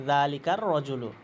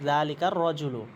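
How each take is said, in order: No difference in how they are said.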